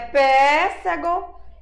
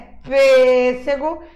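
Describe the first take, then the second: First: The first vowel is said open. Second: The first vowel is said closed. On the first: The speaker calls it wrong. "Não é pêssego" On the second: The speaker calls it right. "é pêssego... som fechado"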